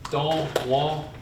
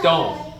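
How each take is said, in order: First: The word is said with all its syllables. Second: The word is said without its last syllable.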